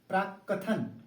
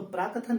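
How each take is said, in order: First: The k sound in the middle is doubled. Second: The k sound in the middle is single. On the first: The speaker calls it right. "आधा क और लगेगा" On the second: The speaker calls it wrong. "प्राकथन नहीं"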